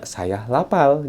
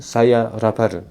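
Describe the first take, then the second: First: Put-on a light Chinese accent, "saya lapal" with L in place of R. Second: Put-on slow Japanese-accented "saya rapar", R for L. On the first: Teacher contrasting a light Chinese accent with Japanese. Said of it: "Kalau orang Cina". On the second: Teacher contrasting a Japanese accent with Chinese. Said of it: "Kalau orang Jepang".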